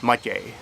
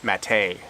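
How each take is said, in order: First: Matěj in Czech, MA-tyey, stress up front; Czech pronunciation. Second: Maté with stress on the second syllable, ma-TAY; Maté the Canadian way, stress on the end; anglicized name. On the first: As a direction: say Matěj the Czech way, first syllable stressed and T softened. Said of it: "There's an accent on the E that softens the T sound". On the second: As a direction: say Maté so it rhymes with pate, ma-TAY. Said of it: "with the accent on the second syllable". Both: Shown as a demonstration.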